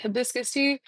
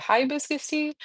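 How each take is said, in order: First: "hibiscus" with a short first vowel, huh-BIS-kus; usual pronunciation. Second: "hibiscus" said HIGH-biscus; their pronunciation. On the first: Shown as a demonstration. Streamer naming her drink, "hibiscus" said huh-BIS-kus. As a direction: say "hibiscus" starting with a quick "huh". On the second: Retold or imitated. Streamer quoting the restaurant's name for it, "hibiscus" said HIGH-biscus. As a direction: open "hibiscus" with a long "high". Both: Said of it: "but they call it hibiscus tea".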